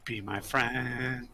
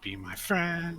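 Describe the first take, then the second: First: Slow, stretched-out pleading; slow mock begging near usual pitch; playful plea. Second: High put-on pleading voice; high, wheedling mock begging; higher playful plea. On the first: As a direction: drag out each word in a mock entreaty. Playful plea, said two ways. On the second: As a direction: push the mock entreaty well up in pitch.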